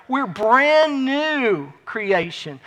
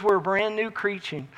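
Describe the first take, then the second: First: "brand new" stretched long and slow; slow emphatic repeat, "brand new" held out; drawn-out emphasis. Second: Said in the usual way. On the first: Real, not acted. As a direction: linger heavily on "brand" and "new".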